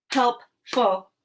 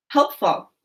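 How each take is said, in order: First: "Helpful" split as help, pause, ful; chopped syllables. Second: Said in the usual way. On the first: Shown as a demonstration. Teacher chops "Helpful" for pupils to blend, syllable by syllable. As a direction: break "Helpful" into two separate beats. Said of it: "I'm gonna chop the syllables in each word". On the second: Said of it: "you're gonna say what our word is".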